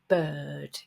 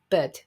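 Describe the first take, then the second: First: The vowel is held long. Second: The vowel is cut short. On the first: The speaker calls it right. "So it needs to be a long vowel" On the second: The speaker calls it wrong. "They make it too short"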